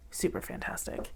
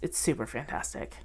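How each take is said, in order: First: "Super fantastic" whispered breathily, no voice; whispering. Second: Said in the usual way. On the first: Real, not acted. Whispered echo of her own words.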